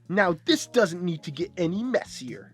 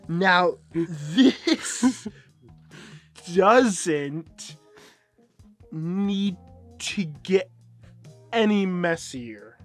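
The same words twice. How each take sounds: First: It is said at a normal, quick reading pace. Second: It is said very slowly and carefully. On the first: The speaker calls it wrong. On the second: The speaker calls it right.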